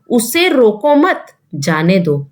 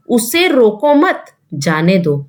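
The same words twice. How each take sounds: First: The pause comes after मत. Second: The same.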